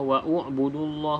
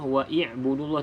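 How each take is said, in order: First: A u vowel comes between wa and b. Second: An i vowel comes between wa and b. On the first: "tidak perlu kita baca" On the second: "tidak perlu kita baca"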